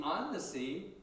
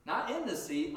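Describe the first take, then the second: First: "on" stressed with a rise. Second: "in" stressed as the wrong word. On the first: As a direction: lift "on" as the right word. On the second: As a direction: lean on "in" to reject it. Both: Shown as a demonstration. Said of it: "walking on the sea".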